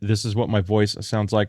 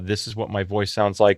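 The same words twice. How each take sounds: First: The voice is processed with a low-pitch broadcast setting. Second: The voice is processed with a balanced setting. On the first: "on broadcast low pitch" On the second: "if I set it to balanced"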